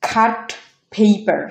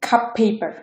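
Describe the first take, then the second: First: Said in the usual way. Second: Cup paper, the t of "cut" turned to p; assimilated T. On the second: Shown as a demonstration. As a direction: hold one long p across cup paper. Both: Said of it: "এটা উচ্চারণ হবে".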